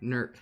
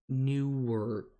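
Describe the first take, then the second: First: The name is squeezed into one syllable. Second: The name is said with two full syllables. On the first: This is how locals say it. "you say Nurkaha" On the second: This is the official way to say it. "It's actually supposed to say it Newark"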